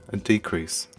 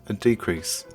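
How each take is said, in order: The two takes are said the same way.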